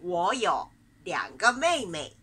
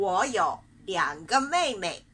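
The two takes are said the same way.

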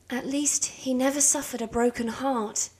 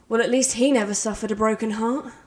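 First: It is said in a warm, loving tone. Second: It is said in a snarky, sarcastic tone.

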